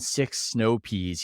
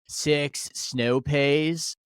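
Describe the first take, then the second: First: It is said in a plain, standard accent. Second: It is said in a San Diego accent. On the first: "instead of saying" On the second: "he goes"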